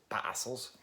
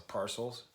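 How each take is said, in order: First: Bad Australian accent. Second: Said in the usual way. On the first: Shown as a demonstration. Vlogger guessing how the band from Australia says it, bad Australian accent. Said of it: "that bad Australian accent". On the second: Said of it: "I guess I'd pronounce it".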